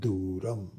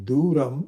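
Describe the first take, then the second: First: The syllable Du is lowered in pitch. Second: The syllable Du is not lowered in pitch. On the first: The speaker calls it right. "that horizontal line makes the tone lower" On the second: The speaker calls it wrong. "instead of saying Duram"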